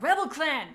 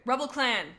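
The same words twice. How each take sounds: First: Loud, high character shout. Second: Said in the usual way. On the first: A narrator's reading. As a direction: shout it out like a battle alarm. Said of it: "Pinky Fur shouted". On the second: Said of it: "I didn't really shout that".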